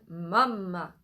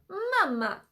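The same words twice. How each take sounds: First: It is said at a low pitch. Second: It is said at a high pitch.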